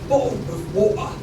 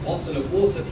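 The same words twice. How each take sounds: First: The T sounds are stopped in the throat. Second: The T sounds are clearly pronounced. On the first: The speaker calls it right. "Remember to use the glottal T, the L that sounds like a W" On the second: The speaker calls it wrong. "So none of this"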